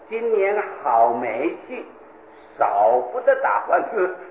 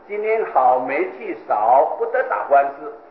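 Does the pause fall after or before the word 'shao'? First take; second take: before; after. First: The phrase breaks right before the word shao. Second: The phrase breaks right after the word shao. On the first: The year is full of bad luck and lawsuits are unavoidable. The speaker calls it wrong. "而他把它念成" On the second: The year is good, bad luck is little, no lawsuits. The speaker calls it right. "本来是"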